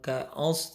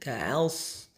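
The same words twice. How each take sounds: First: The vowel a sounds heavy and thick. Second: The vowel a sounds light and thin. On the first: The speaker calls it wrong. "bukan ka'als" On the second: The speaker calls it right. "a-nya tipis, so-nya tebal"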